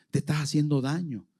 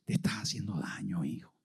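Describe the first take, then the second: First: Said in the usual way. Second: Hushed, low, gentle rebuke; tender and soft. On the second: Acted. God to lost Saulo, hushed and tender. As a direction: soften it like a loving father.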